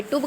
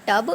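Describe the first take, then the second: First: टुब with a short "oo"; wrong reading of tub. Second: टब with a short "uh"; short neutral vowel in टब; correct reading of tub. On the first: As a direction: say टुब with the vowel of "book". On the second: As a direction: say टब with the vowel of "cup". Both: Shown as a demonstration. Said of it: "ना हमने टुब कहा".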